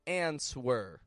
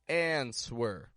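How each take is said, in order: Both takes have the same delivery.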